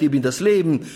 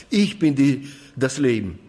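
First: „Leben“ betont, „ich bin“ beiläufig; Betonung auf Leben. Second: „ich“ betont, zum Ende hin fallend; Betonung auf ich. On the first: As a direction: leg das Gewicht auf „Leben“. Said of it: "da macht man die Betonung auf". (Aufzählung mit Akzent auf „Leben“) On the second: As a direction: setz den Nachdruck auf „ich“. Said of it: "dann liegt die Betonung immer auf ich". (Akzent auf „ich“, danach abfallend) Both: Shown as a demonstration.

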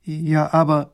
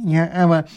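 First: Lightly voiced princess, taken aback; young princess. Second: Lightly voiced fussy minister, taken aback; old minister. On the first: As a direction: object hesitantly as the princess. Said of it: "sagt die Prinzessin". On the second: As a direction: echo the objection as the minister. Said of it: "sagt der Minister". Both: A narrator's reading.

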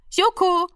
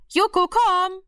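First: Much higher, sing-song call; calling the cat. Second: Much higher call, leaning on komm; coaxing call. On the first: Mother testing if the cat knows its name, calling. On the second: Mother testing if the cat knows its name, coaxing call. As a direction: coax the cat to come. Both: A narrator's reading.

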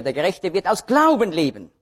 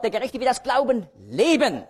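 First: "Glauben" punched, falling off on the last word; stress on Glauben. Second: High-pitched line, "leben" swept up and down after a small break; stress on leben. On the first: Preacher quoting the verse for Galatians, stress on "Glauben". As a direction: hit "Glauben" as the key word. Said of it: "jedes Mal liegt die Betonung aber ein bisschen anders". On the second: Preacher showing where Hebrews puts it, stress on "leben". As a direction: save the emphasis for a stretched final "leben". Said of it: "Da liegt also die Betonung auf dem Leben". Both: Shown as a demonstration.

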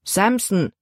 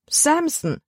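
First: Said in the usual way. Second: Put-on Samson called out much higher, in a girl's voice; girl calling out. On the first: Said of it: "antwortete ihr Vater". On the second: A narrator's reading. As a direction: cry the name Samson in dismay, high up. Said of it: "rief Libby".

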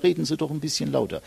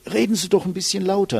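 First: A lightly voiced grandpa grumbling "Reden Sie doch ein bisschen lauter", quick; hint of a grumpy old man calling from the back row. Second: "Reden Sie doch ein bisschen lauter" thrown out much higher and quick; mock call of a listener who can't hear; annoyed listener. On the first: Coach imitating a grandpa in the back, lightly grumbling. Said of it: "irgendein Opa hinten auf und sagt". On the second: Coach imitating an annoyed listener demanding more volume. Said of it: "nicht richtig versteht und sagt".

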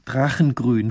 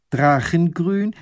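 First: Said in the usual way. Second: Astonished question. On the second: A narrator's reading. Lady repeats, astonished.

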